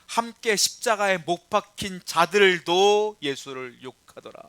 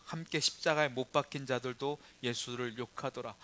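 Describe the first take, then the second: First: Slow, loud build to "자들도", then drop on "욕하더라"; emphatic re-reading. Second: Said in the usual way. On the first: Shown as a demonstration. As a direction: stress "자들도", loud and drawn out. Verse repeated emphatically for the congregation.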